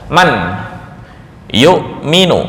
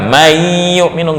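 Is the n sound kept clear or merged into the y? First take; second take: kept; merged. First: The n sound is pronounced clearly before the y. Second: The n sound is merged into the following y. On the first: The speaker calls it right. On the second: The speaker calls it wrong.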